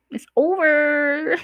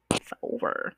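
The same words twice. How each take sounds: First: "It's over" stretched slow and high, singing it out; drawn-out high sing-song. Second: "It's over" whispered with no voice. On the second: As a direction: whisper "It's over" under your breath. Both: Shown as a demonstration. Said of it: "the relationship is over".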